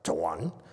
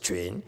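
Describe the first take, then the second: First: It begins with ch followed by a plain u. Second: It begins with q followed by a rounded ü. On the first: The speaker calls it wrong. "as a Chuan, like Vietnam, Vietnam language" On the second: The speaker calls it right. "So you should pronounce it Chuan"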